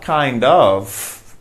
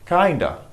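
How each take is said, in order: First: Both words are said fully with the F. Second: The words blend into 'kinda' without the F. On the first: The speaker calls it wrong. "Not kind of" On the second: The speaker calls it right. "We don't pronounce the F"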